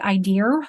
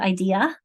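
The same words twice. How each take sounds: First: An R sound is added at the end. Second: No R sound is added at the end. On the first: This is a regional pronunciation. "anybody British who will say" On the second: This is the usual pronunciation. "instead of"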